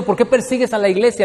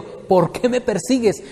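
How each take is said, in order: First: Said in the usual way. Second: Slow, leaning hard on "me"; "¿Por qué me persigues?" with "me" punched; stress on me. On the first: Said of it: "Noten, no está diciendo". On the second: Shown as a demonstration. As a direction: make "me" the heart of the question. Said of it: "Le está diciendo".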